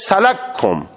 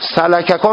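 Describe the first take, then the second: First: The first k is merged into the second. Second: The two k sounds are pronounced separately. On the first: "سلککم میشه سلککم" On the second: "اول میای اون کاف اول را اسکان میدی، ادغامش میکنی تو کاف دوم"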